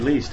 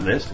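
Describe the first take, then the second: First: The vowel is long, like 'least'. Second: The vowel is short, like 'list'. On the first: The speaker calls it right. "instead of saying list, you say least" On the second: The speaker calls it wrong. "it's not list"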